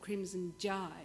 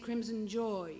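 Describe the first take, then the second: First: The last vowel sounds like an old Cockney 'jai'. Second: The last vowel sounds like a standard 'joy'.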